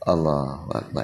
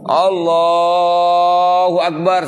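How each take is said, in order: First: It is said softly, barely audible. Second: It is said loudly, projected outward.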